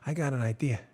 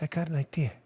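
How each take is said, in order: First: Vito Corleone. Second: Lightly voiced mobster rasp, low and soft; Vito Corleone. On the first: Retold or imitated. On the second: Host mocks a consultant as a mobster, lightly voiced godfather. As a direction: mumble it like an old mafia boss. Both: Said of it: "you got your Vito Corleone voice?".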